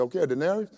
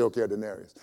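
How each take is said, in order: First: DENARIUS lifted high as a question. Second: DENARIUS falling like a settled answer; agreeing. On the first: Owner checking the wage with his workers, questioning. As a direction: check the deal, pitch rising on "denarius". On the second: Workers accepting the owner's wage, agreeing. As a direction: accept the deal, pitch dropping on "denarius". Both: Acted.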